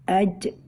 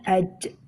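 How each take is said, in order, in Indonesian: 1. Konsonan akhir terdengar seperti bunyi ch. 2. Konsonan akhir terdengar seperti bunyi ch.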